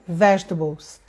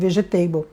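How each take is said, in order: First: The ending does not sound like 'table'. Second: The ending sounds like the word 'table'. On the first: The speaker calls it right. "Não tem nada a ver com table de mesa" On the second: The speaker calls it wrong. "eu pronunciava errado, eu pronunciava vegetable"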